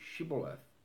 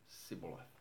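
First: The word begins with a 'sh' sound. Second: The word begins with an 's' sound. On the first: The speaker calls it right. "Can you say Shibboleth?" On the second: The speaker calls it wrong. "for he could not frame to pronounce it right"

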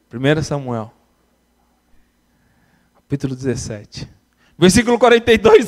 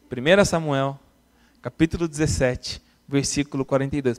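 First: It is said slowly. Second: It is said fast.

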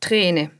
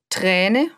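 First: The vowel is a closed e. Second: The vowel is an open ä. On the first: The speaker calls it wrong. "und nicht Träne" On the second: The speaker calls it right. "wo der Buchstabe Ä steht, wird auch ein Ä gesprochen"

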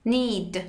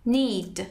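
The two takes are said the same way.

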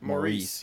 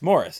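First: The name is said like 'Maurice'. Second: The name is said like 'Morris'. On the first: This is how Americans say the name. The speaker calls it wrong. "my favorite mispronunciation of all time ... as Americans we pronounce it Maurice" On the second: This is how the name is really said. The speaker calls it right. "it's Morris. That's the British spelling"

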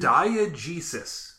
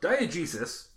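First: The word is said slowly. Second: The word is said at normal speed.

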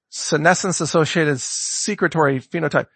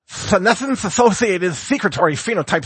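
First: It is said in a normal speaking voice. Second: It is said in an imitated cartoon cat voice.

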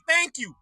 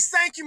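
First: It begins with a th sound. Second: It begins with an s sound. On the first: The speaker calls it right. "It's thank you" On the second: The speaker calls it wrong. "When the hell did we start thank you with an S?"

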